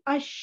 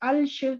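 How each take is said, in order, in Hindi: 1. कोई L की आवाज़ नहीं; स्वर सीधे sh से जुड़ जाता है। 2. sh से पहले L की आवाज़ सुनाई देती है। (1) "लाम की आवाज बिल्कुल नहीं आनी चाहिए, लाम फुली साइलेंट होगा" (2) "ये आपने ऐसे नहीं पढ़ा कि अलश"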